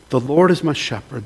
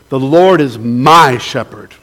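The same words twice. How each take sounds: First: The word 'my' carries no special stress. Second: The word 'my' is clearly emphasized.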